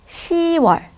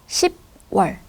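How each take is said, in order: First: No p sound is heard before 'wol'. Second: A p sound is heard before 'wol'. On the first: The speaker calls it right. "it is pronounced as 시월" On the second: The speaker calls it wrong. "rather than 십월"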